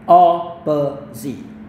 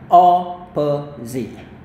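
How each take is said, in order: First: American accent, with a long o first vowel. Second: The same.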